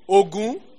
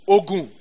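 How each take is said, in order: First: It has the tone pattern of the war god's name. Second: It has the tone pattern of the word for medicine. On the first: The word names the god of war and iron. "Ogun is what? The god of war" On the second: The word means medicine. "Ogun, medicine"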